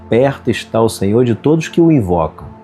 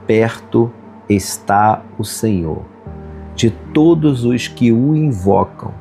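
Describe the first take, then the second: First: It is read at normal pace. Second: It is read very slowly.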